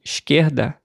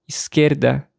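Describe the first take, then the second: First: Esquerda with an sh sound before the k; "esquerda" with chiado s, like English sh; hushed S. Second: Esquerda with a plain s sound before the k; "esquerda" with hissing s, not sh; hissed S. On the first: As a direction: say "esquerda" as "ishkerda". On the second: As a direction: say "esquerda" as "iskerda", with a clean s. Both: Shown as a demonstration. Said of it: "duas maneiras diferentes de pronunciar".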